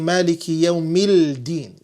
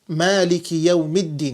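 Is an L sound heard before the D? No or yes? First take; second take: yes; no. First: An L sound is pronounced before the D. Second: The L is silent, merging into a doubled D. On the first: The speaker calls it wrong. "You can't say" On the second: The speaker calls it right. "the Lam is not pronounced. So you say what?"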